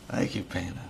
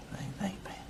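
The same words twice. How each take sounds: First: Said in the usual way. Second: Much softer breathy whisper. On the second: Real, not acted. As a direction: whisper the thanks. Thanks, then whispers it again.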